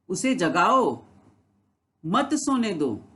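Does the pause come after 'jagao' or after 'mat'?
after jagao. There is a pause right after 'jagao'. Wake the person up and do not let them sleep. "उसे जगाओ, मत सोने दो, उसे सोने मत दो, उसे उठाओ।"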